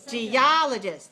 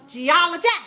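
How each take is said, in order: First: The stress is on the second syllable. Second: The stress is on the third syllable. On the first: The speaker calls it right. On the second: The speaker calls it wrong.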